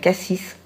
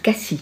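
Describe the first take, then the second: First: The final S is sounded. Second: The final S is silent. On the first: The speaker calls it wrong. "Pardon, faut pas dire ça" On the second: The speaker calls it right. "On prononce pas le S à la fin"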